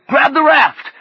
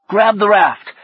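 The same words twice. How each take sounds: First: Much higher, louder yell; frantic shouted order. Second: High, louder command; firm order. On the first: Fredericks repeating his order to Orlando, shouting. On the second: Fredericks directing Orlando to grab the raft, firm. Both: A narrator's reading. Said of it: "Fredericks directed".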